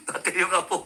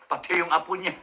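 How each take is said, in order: First: Said through laughter; giggling the repeat; laughing. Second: Said in the usual way. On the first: Real, not acted. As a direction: let the laugh spill into "Pati yung apo".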